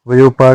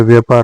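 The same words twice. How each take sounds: First: वयोपार opening va-yo; wrong vayo- opening. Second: व्यापार opening on joined vyaa; correct vyaa- opening. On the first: Teacher showing learners the mistake, वयोपार with va-yo. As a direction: say वयोपार with an o after y. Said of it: "व्यापार होता है". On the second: Teacher giving learners the correction, व्यापार with vyaa. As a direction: say व्यापार with long aa after vy. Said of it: "वयोपार नहीं होता है". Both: Shown as a demonstration.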